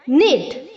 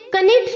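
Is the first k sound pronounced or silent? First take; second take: silent; pronounced. First: The word begins with no k sound. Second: The word begins with a sounded k. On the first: The speaker calls it right. "यहां पर भी केस silent है" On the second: The speaker calls it wrong. "हमें इसे कनिट नहीं बोलना है"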